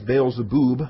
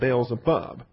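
First: The last syllable has a long oo vowel. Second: The last syllable has a short u vowel. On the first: The speaker calls it right. "the shurik is a long oo, so we ought to be pronouncing this Beelzebub" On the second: The speaker calls it wrong. "rather than Beelzebub"

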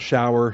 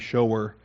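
First: It is said to rhyme with 'flower'. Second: It is said like 'show' plus 'er'. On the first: A rain or bath shower. "not shower" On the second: One who shows. "the gift of mercy shower"

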